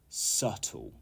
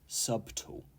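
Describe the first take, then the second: First: The word is said with a silent B. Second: The word is said with the B pronounced. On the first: The speaker calls it right. "The B is silent" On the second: The speaker calls it wrong. "Not subtle"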